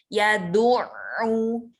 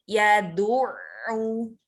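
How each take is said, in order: No difference in how they are said.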